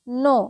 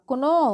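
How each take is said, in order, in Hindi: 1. n से पहले k की कोई ध्वनि सुनाई नहीं देती। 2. n से पहले k की ध्वनि सुनाई देती है। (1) "के जो होता है वो साइलेंट होता है।" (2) "जी नहीं, ये गलत हो जाएगी।"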